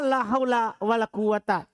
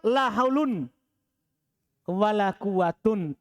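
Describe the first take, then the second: First: Both nouns end in a short a sound. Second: Both nouns end in an un sound. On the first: The particle la governs the nouns. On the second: The particle la does not govern the nouns. "Tidak beramal"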